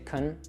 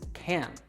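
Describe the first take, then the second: First: The vowel is weak and reduced. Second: The vowel is a full short A. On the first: "the reduced version" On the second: "say it fully as can"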